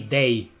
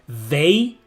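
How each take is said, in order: First: It begins with a hard d sound. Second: It begins with a soft th sound. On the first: The speaker calls it wrong. "we say they, they like like day" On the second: The speaker calls it right. "instead of saying they"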